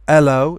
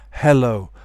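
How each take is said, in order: First: The h sound at the start is dropped. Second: The h sound at the start is pronounced. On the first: The speaker calls it wrong. "Some people say hello instead of" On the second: The speaker calls it right. "instead of hello"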